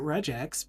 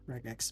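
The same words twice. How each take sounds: First: The g is soft, like a j. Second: The g is hard, like in go. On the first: "I used to pronounce it regex" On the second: "I leave it as a g sound"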